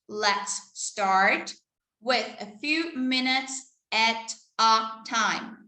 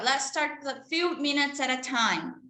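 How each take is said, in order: First: The sentence is spoken at a normal pace. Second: The sentence is spoken quickly.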